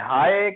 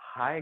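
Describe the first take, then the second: First: The word is said loudly and forcefully. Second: The word is said at a normal, soft volume.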